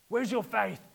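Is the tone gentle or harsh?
harsh. It is said in a harsh, rebuking tone.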